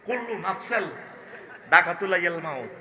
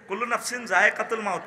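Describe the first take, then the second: First: The phrase is slurred, with sounds badly distorted. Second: The phrase is pronounced clearly, with distinct sounds. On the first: The speaker calls it wrong. "দাঁত নাই যে, ... ওই উচ্চারণ করতে পারে না আর কি।" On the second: The speaker calls it right. "কইতে পারে না"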